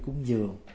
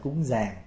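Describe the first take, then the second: First: It is said with a Southern Vietnamese accent. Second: It is said with a Northern Vietnamese accent. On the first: "người trong Nam kêu cúng giường" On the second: "Người Bắc gọi là cúng giàng"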